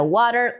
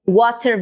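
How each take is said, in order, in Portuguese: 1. O T do meio é uma batida rápida da língua. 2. O T do meio é uma oclusiva clara e liberada.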